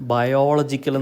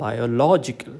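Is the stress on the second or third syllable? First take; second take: second; third. First: The stress is on the second syllable. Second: The stress is on the third syllable. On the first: The speaker calls it wrong. "നമ്മൾ കൂടുതൽ പേർക്കും biological എന്ന് പറഞ്ഞാണ് ശീലം. ... ഇവിടെ ഓളജിക്കല്ല stress" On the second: The speaker calls it right. "the stress falls on the third last syllable"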